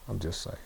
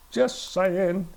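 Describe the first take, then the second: First: Low, soft throwaway aside; very soft and low, almost to oneself; quiet aside. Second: Higher, full-voiced repeat; pitched up, at normal volume; aside repeated aloud. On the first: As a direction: drop it low, under the voice. Aside, then said again aloud. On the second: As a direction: lift the pitch and say it out openly. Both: Real, not acted.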